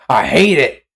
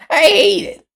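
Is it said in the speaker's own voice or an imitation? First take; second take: own voice; imitation. First: It is said in the speaker's own voice. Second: It is said imitating the other creator's voice.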